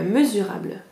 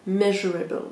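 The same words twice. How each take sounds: First: Said in the usual way. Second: Measurable said as the English word, English vowels and r; English pronunciation. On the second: Shown as a demonstration. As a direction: switch to a self-conscious English measurable. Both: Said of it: "Pardon pour mon accent".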